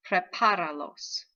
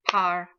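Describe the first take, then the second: First: Said in the usual way. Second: "prepáralos" in four separated beats, pre, par, a, los; syllable by syllable. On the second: Shown as a demonstration. Teacher finding the accented syllable, "prepáralos" broken into syllables. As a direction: break "prepáralos" up, a gap after each syllable. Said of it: "Third to the last syllable".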